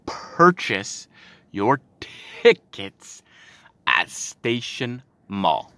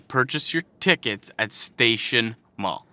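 First: Word by word, with pauses between; "Purchase ... your ... tickets ... at Station Mall", each chunk set apart; slow, pointed emphasis. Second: Said in the usual way. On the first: Shown as a demonstration. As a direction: spell it out slowly for an idiot. Repeats the flyer words pointedly.

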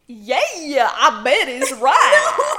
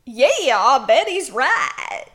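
First: Slow twangy drawl. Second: Exaggerated villain voice; slow, hammed-up drawl; Pollen voice. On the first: Acted. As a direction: lay the twang on thick. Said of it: "You're still doing it too twangy". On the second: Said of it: "It wasn't a twangy one, it was just very exaggerated".

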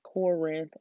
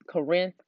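First: Corinth said carefully as "COR-inth"; full "COR" at the start of Corinth; corrected pronunciation. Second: Southern-drawled Corinth, first syllable swallowed to "kuh-RINTH". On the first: Podcaster correcting a drawled slip, Corinth as careful "COR-inth". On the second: Excited podcaster slipping on Corinth, Southern drawl "kuh-RINTH". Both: Real, not acted. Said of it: "I have a southern drawl".

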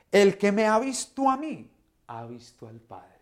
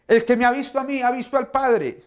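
First: A patient, loving answer from Jesus; Jesus answering his friends with love, not scolding. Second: Much higher and louder, exasperated repeat; a preacher mock-scolding the disciples, impatient. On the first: Acted. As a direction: gently set them straight, in a preacher's voice. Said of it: "Jesús los amaba hasta en la forma de responderles". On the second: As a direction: scold them as if they should know better. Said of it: "Yo no me imagino yo respondiéndoles de esta manera".

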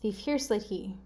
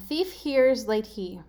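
First: Thief hears late he run together; quicker, softer, connected clue; faster readout. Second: Thief, hears, late, he as separate words; deliberate spaced-out gibberish clue; slow readout. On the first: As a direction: blend the words into a phrase. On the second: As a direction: read it slowly, word by word. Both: Shown as a demonstration. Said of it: "better if I read it fast".

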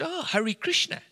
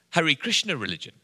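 First: Much higher, rising echo of the answer; mock-intrigued echo. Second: Said in the usual way. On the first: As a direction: act out a high-pitched "oh, really". Echoes the waiter's answer.

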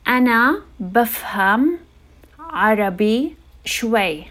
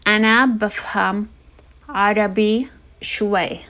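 Both takes have the same delivery.

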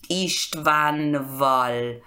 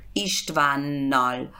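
First: Istvanval drawn out slowly with n then v; slow, unassimilated Istvanval; hard-to-pronounce form. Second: Istvánnal joined, with a long double n; slow Istvánnal, lengthened n; V becomes N. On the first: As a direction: say Istvanval slowly, keeping the v after n. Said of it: "Es muy difícil". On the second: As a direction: say Istvánnal slowly as one word with held n. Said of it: "Esa es la regla con consonantes". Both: Shown as a demonstration.

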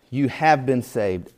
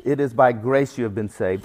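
First: "You have been saved" slow, with HAVE leaned on hard; exclamatory emphasis. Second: Said in the usual way. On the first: Shown as a demonstration. Preacher driving the verse home to the congregation, emphatic and slow. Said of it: "Exclamation point".

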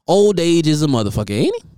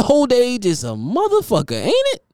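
First: Said in the usual way. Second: Higher, with a big rising squeak on ain't it; emphatic repeat. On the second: Shown as a demonstration. Teasing A-Rod about his age, ain't it squeaked up high. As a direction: lean in and shoot ain't it way up. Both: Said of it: "repeated line".

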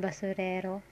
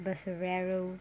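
First: "basurero" with tapped r and pure vowels; Tagalog pronunciation. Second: "basurero" with English r and final "oh" glide; English-style pronunciation. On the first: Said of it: "is it in Tagalog". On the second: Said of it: "pronounce it as this way". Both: Shown as a demonstration.

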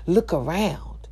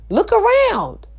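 First: Softer and slow; hushed, slow look around; quiet, slow. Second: High, sudden call out. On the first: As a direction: say it low, half to yourself. Quiet then loud repeat. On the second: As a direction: break out high to everyone. Loud high repeat. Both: Real, not acted.

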